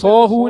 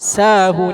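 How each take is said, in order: First: The first syllable is heavy with rounded lips. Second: The first syllable is thin and light. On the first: The speaker calls it wrong. "എന്ന് പറയരുത്" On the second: The speaker calls it right. "ഇത് നേർപ്പിച്ച് പറയണം"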